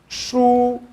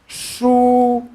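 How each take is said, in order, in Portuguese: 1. É dito no primeiro tom. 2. É dito no primeiro tom.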